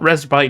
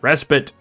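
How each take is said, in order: First: The second part sounds like the word spite. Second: The second part sounds like the word spit. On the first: The speaker calls it wrong. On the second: The speaker calls it right.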